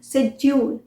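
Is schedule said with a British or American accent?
British. It starts with a 'sh' sound, British style.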